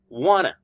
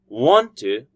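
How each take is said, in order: First: The words are blended into a reduced form. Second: Both words are said fully and separately. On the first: "which is wanna"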